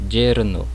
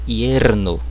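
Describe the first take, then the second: First: It begins with a buzzing 'zh' sound. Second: It begins with a gliding 'y' sound. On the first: "um som semelhante ao J do português" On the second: "com som de I"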